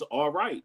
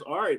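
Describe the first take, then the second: First: It is said as two full syllables. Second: It is squeezed into one short syllable. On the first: It is the standard form. "means all right" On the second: It is the speaker's group's own slang form. "That's just us saying it in a way that we say it"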